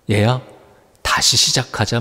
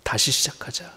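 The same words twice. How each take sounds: First: Softer, gentle call to begin again, 시작하자 falling; Jesus softly calling Simon back; tender invitation. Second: Much softer, 다시 lifted in a near-whisper; 다시 시작하자 as a faint, intimate echo; hushed repeat. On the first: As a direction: speak 다시 시작하자 like a loving father, settling down on 시작하자. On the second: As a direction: breathe 다시 시작하자 almost inaudibly, rising on 다시. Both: Retold or imitated. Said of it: "말씀하는 거예요".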